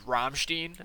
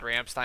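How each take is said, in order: First: The name is said with a German pronunciation. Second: The name is said with an American pronunciation. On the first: This is how other people insist it is said. "people are like, um, it's Rammstein" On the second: This is how the speaker himself says it. "I've always said Ramstein"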